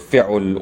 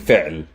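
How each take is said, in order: First: A u vowel follows the ain sound. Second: No vowel follows the ain sound. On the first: The speaker calls it wrong. "or fi'ul" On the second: The speaker calls it right. "I'm saying fi'l ... there's no vowel sound"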